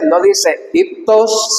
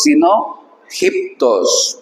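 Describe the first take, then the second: First: Said in the usual way. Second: Teacher contrasting, correct rough-breathing "giptos"; "giptos" very slow with a rasped J. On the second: Shown as a demonstration. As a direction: drag "giptos" out, a harsh aspirated J start. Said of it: "como con J".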